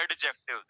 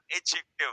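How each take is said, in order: First: "एडजेक्टिव" with the D sounded; mock the wrong "एडजेक्टिव"; wrong pronunciation shown. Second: "एडजेक्टिव" said with a silent D, "एजेक्टिव"; correct pronunciation. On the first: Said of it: "This is not adjective बेटा". (गलत उच्चारण, डी बोलकर) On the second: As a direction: drop the D cleanly. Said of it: "silent". (सही उच्चारण, डी silent) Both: Shown as a demonstration.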